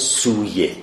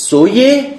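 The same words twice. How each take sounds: First: سویه said "su-ye", with a long oo; first syllable of سویه sounds like "soo"; long u pronunciation. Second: سویه said "so-ye", with an o vowel; first syllable of سویه rhymes with "so"; o pronunciation. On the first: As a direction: give سویه a long u, as "suye". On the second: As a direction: give سویه a short o, as "soye". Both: Shown as a demonstration. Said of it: "دو تا تلفظ ما داریم".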